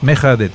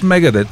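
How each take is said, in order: First: The middle consonant is a breathy h sound. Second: The middle consonant is a hard g sound. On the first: Saying it this way earns the money. The speaker calls it right. "Мехадет, Мехадет" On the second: Saying it this way does not earn the money. The speaker calls it wrong. "ако кажеш Мегадет, не можа"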